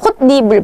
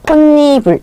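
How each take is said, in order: First: The two middle consonants clash and stay separate. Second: The two middle consonants merge into one smooth sound. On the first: The speaker calls it wrong. "홑 니불 발음하기 힘들잖아요" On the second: The speaker calls it right. "발음을 편안하게 하기 위해서 홑니불, 홑니불 이렇게 발음이 되게 되는 거예요"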